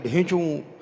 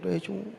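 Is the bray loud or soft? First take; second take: loud; soft. First: The bray is loud and big. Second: The bray is weak and fading.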